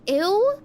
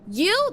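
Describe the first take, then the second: First: The word sounds like 'ew'. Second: The word sounds like 'you'. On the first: The speaker calls it wrong. "I've been calling it an ew" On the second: The speaker calls it right. "it's called a U?"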